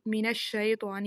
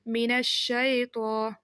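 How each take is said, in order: First: The right layyin ai in من الشیطان; correct reading. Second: من الشیطان with the ی said as a long e; the wrong majhool reading of من الشیطان; common mistake. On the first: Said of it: "بلکہ یہ من الشیطان ہی ہے". (صحیح حرف لین کے ساتھ) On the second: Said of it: "بعض لوگ اس کو پڑھتے ہیں". (غلط مجہول ادائیگی) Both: Shown as a demonstration.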